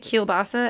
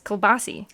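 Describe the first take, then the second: First: The word ends in an 'uh' sound. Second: The word ends in an 'ee' sound. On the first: The speaker calls it right. "I heard someone say kielbasa" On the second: The speaker calls it wrong. "as kielbasi"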